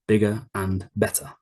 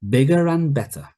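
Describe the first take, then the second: First: The words are said separately, without linking. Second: The words run together with linking sounds. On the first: The speaker calls it wrong. "the way I'm saying it now is very unnatural" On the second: The speaker calls it right. "bigger and, bigger and"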